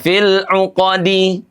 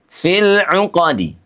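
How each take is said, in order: First: The final vowel is pronounced fully and clearly. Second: The final vowel is barely voiced, very short. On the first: The speaker calls it wrong. "Tidak fil 'uqadi" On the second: The speaker calls it right. "dibaca sepertiga harokat saja"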